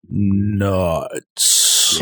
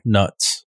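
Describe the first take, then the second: First: The word is said slowly and drawn out. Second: The word is said at normal speed.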